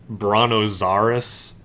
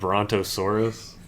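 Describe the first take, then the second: First: The T sound in the word is silent. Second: The T sound in the word is pronounced.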